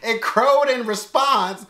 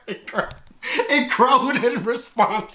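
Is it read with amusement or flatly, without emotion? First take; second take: flat; amused. First: It is read flatly, without emotion. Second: It is read with laughing amusement.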